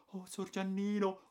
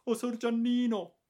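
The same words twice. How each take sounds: First: A maid moved to tears; tearful maid. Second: Much higher, louder repeated cry; tearful maid. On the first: Maid weeping with joy. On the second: Maid Caterina greeting the returned boy, louder tearful cry. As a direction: cry it out overcome with joy. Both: A narrator's reading.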